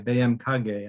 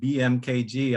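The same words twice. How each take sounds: First: The letters get local Indonesian-style names. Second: The letters get their usual English names. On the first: "I'll try B M K G, I think I heard it pronounced" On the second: "instead of saying"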